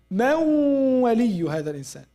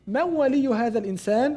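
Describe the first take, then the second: First: It is said with sounds drawn out long. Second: It is said quickly, without lengthening.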